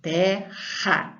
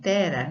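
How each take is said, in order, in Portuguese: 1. O r é forte, um som áspero. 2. O r é fraco, uma batidinha leve. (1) "o som é forte" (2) "não é terra"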